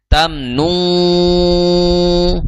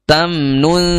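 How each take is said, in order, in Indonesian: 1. Bunyi sengau itu berat dan tebal. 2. Bunyi sengau itu ringan dan tipis. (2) "Jadi tipis"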